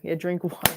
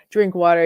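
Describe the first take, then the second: First: Said in the usual way. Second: Drink pushed out louder; louder repeat. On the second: Real, not acted. Repeating the viewer's advice to herself, louder and firmer.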